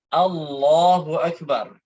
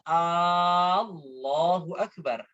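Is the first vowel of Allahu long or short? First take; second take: short; long. First: The first vowel of Allahu is short. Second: The first vowel of Allahu is drawn out long. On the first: The speaker calls it right. "Jadi Allahu Akbar" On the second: The speaker calls it wrong. "Tidak boleh dibaca ... Nggak boleh dipanjangkan A-nya"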